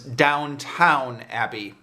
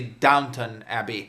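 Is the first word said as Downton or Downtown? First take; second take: Downtown; Downton. First: The first word sounds like downtown. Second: The first word sounds like downton. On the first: The speaker calls it wrong. "mispronouncing the name of this show as Downtown Abbey" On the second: The speaker calls it right. "but it's actually Downton Abbey"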